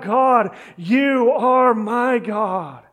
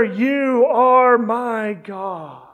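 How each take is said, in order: First: God, you are my God, drawn out slowly; slow the words right down and lean on are; slow earnest cry. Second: Each word of You are my God stretched out; very slow affirmation. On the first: Preacher echoing David's cry, slow and earnest. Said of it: "He cries out". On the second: Preacher voicing David's prayer, very slow. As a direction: let are ring long and heavy. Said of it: "David is affirming this prayer". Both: Acted.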